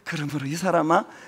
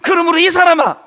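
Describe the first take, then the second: First: It is said in a soft, solemn, holy tone. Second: It is said in a sharp, scolding, angry tone. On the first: It is a calm, gracious address. The speaker calls it wrong. "주님이 거룩한 음성으로 ... 이런 뉘앙스가 아니에요" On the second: It is a rebuke telling the hearer to wake up. The speaker calls it right. "지금 여러분을 향해서 ... 정신 차려"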